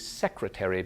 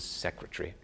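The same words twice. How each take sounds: First: The word is said with four syllables. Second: The word is said with three syllables. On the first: "quadrisyllabic words tend to become trisyllabic"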